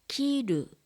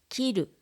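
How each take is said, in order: First: The word is said slowly and carefully. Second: The word is said at natural speed. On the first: "まず単語をゆっくり読みます" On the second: "ナチュラルスピードで読みます"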